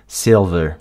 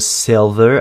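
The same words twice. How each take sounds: First: The vowel sounds like a Minnesota accent. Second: The vowel sounds like standard American speech. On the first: "Ici, il le prononce plus comme un E" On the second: "en accent américain standard, ce serait plutôt silver avec un E"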